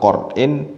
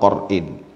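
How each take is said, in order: First: The first vowel is a rounded 'u' sound. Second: The first vowel is an open 'a' sound. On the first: "bi dhammiha, dengan dhammahnya qaf" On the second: "Bi fathil qafi, dengan fathah qafnya"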